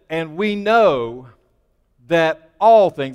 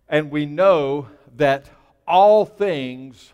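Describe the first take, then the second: First: The phrase is read with strong, forceful emphasis. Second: The phrase is read in a plain, even way.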